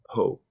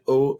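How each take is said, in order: First: "ho" said with a clear breathy H at the start; "ho" with the H pronounced; voiced H. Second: "O" said as a bare vowel with no H; "O" with the H dropped entirely; silent H. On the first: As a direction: say "ho" the English way, H sounded. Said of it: "and not ho". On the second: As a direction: say "O" the French way, H left out. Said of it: "you would say it O". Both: Shown as a demonstration.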